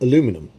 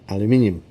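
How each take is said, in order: First: It is said the American way, four syllables. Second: It is said the British way, five syllables.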